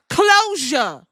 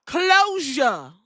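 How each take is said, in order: First: Closure loud and high; dramatic emphasis. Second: Closure loud and high; dramatic emphasis again. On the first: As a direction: land closure like a headline. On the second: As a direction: hit closure hard. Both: Real, not acted. Dramatic pronouncement.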